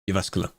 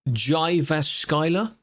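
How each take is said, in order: First: The name begins with a Y sound. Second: The name begins with a J sound. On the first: The speaker calls it right. "That's close enough" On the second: The speaker calls it wrong. "if you wanted to really butcher it, you'd pronounce it like J"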